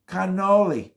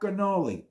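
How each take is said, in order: First: The word is said in full Italian style. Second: The word is said in an Americanized way. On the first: The speaker calls it right. "The way you see it written is the way it's pronounced" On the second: The speaker calls it wrong.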